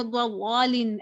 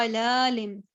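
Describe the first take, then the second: First: ज़लालिन with a heavy, rounded "law" for laa; wrongly thickened lam. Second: ज़लालिम with a light, open "laa"; thin lam. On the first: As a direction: darken the l of ज़लालिन into "dwa-law-lin". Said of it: "ऐसे नहीं पढ़ी". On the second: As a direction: keep the middle l thin in ज़लालिम. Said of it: "लाम तो बारीक letters". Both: Shown as a demonstration.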